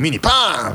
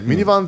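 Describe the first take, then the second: First: The word is said with odd, drawn-out intonation. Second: The word is said with ordinary intonation. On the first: "イントネーションもおかしいんですよ" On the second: "ミニバンっていう単語だって"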